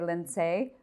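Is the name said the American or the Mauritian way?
Mauritian. The name is said the Mauritian way.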